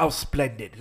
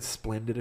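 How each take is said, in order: First: Mock British sarcasm, lightly imitated; sarcastic. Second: Said in the usual way. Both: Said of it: "a few times sarcastically".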